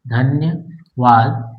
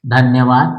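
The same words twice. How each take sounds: First: धन्यवाद said slowly, split as धन्य, then वाद; word split in parts. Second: Said in the usual way. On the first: Shown as a demonstration. Teacher breaking धन्यवाद into parts for shorthand, slow split word. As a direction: break धन्यवाद with a clear pause before वाद.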